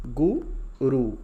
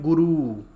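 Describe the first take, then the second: First: गुरु very slow and loud, each short उ clear; slow teaching model; quick short u. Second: गुरु said loud with a long ऊ, as people wrongly say it. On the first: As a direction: drag गुरु out slowly yet keep the उ short. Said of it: "एकदम से". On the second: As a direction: demonstrate the mistaken long गुरु. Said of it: "तो गुरु नहीं होता है". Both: Shown as a demonstration.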